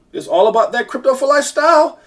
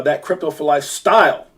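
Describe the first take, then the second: First: High-pitched, rising sing-out of the slogan; hyped promo slogan. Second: Said in the usual way. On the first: Real, not acted. Host plugging Crypto for Life to viewers, hyped promo. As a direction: pitch climbing to a big finish on "style".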